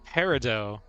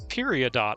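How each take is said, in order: First: It starts without 'period' and ends in 'o'. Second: It starts with 'period' and ends in 'ot'. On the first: The speaker calls it right. "now you're saying it's perido?" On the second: The speaker calls it wrong. "I see the word period. ... And then there's an O T"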